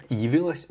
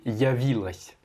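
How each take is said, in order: First: Явилась starting with "yi"; corrected pronunciation. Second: Явилась starting with a full "ya"; imitated mispronunciation. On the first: Shown as a demonstration. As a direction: say Явилась as "yi-vilas". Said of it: "ya au lieu de yi". (Явилась prononcé avec « yi » au début) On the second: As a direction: say явилась as "ya-vilas", copying the learner. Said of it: "tu l'as prononcé". (явилась prononcé « ya » au lieu de « yi »)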